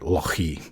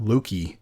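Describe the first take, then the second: First: The middle consonant is a throaty ch sound. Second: The middle consonant is a hard k sound. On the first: The speaker calls it right. "like Loch in Scotland" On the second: The speaker calls it wrong. "not Loki L O K I"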